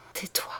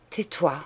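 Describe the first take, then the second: First: Tais-toi dropped to a near-silent breath; fading hush. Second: Said in the usual way. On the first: Acted. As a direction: let the second tais-toi die away, much softer. Dying sister hushes her sister. (tais-toi presque éteint, beaucoup plus doux)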